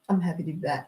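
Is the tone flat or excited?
flat. It is said in a flat, unexcited tone.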